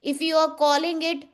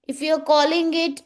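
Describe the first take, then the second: No difference in how they are said.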